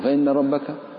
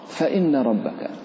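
First: The f is said without flowing breath. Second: The f is said with audible flowing breath. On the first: The speaker calls it wrong. "لا يجرون فيه النفس فيتحول" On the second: The speaker calls it right. "أن تجري النفس في الحرف"

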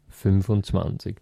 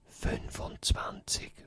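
First: It is spoken in a normal voice. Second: It is spoken in a soft whisper.

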